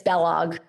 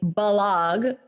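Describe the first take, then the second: First: The name rhymes with Kellogg. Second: The name does not rhyme with Kellogg. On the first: It is the true family pronunciation. "It's Belog. Rhymes with Kellogg" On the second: It is a simplified version so others understand. "sometimes I'll say Balog so people get it"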